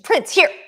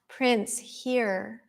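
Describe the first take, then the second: First: The call sounds urgent and alarmed. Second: The call sounds casual and lacks command. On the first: There is danger and the dog must come. The speaker calls it right. "if it's a dangerous situation" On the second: The dog does not feel called. The speaker calls it wrong. "he's not going to come"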